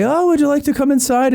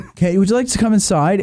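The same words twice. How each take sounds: First: Very high, lilting polite invitation; exaggerated hospitality, pitched way up; voiced Irish host. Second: Said in the usual way. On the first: Irish couple invite her inside, put-on high voice. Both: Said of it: "not gonna try to do a broke".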